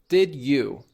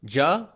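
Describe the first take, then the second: First: Both words are said fully and separately. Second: The words blend into one syllable ending 'ah'. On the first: "Take a look at this example" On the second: "That gets changed to ja or ju"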